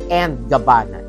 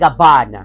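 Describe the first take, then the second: First: The linking word is said as English 'and'. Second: The linking word is not said as 'and'. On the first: The speaker calls it wrong. "not and Gabbana" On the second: The speaker calls it right. "It's & Gabbana"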